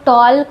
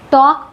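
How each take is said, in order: First: The L sound is pronounced. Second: The L sound is silent. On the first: The speaker calls it wrong. "बहुत सारे छोटे बच्चे इसको टॉल्क भी पढ़ते हैं" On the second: The speaker calls it right. "यहाँ पर एल साइलेंट होता है"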